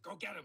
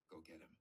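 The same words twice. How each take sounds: First: Loud, high mock command; imitated exasperated order, raised voice; insistent urging. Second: Low, soft nudge; imitated quiet, low prompting; hushed urging. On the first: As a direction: push them into action forcefully. Professor's final, insistent urging. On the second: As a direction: urge someone discreetly under your breath. Professor's first urging, hushed.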